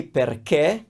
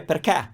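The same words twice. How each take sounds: First: Perché with a closed E, Roman style; standard perché. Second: Perché with an open E, Milan or Sicily style. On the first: Teacher modelling her own perché, closed E. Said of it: "I say". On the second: Teacher showing a northern perché, open E. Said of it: "with an open E". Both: Shown as a demonstration.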